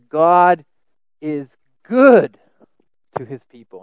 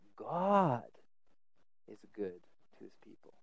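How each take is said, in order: First: The word good carries the main stress. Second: The word God carries the main stress. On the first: The goodness lies in what is given. "And the emphasis is on good" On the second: The goodness lies in the giver himself. "The emphasis shifts to God"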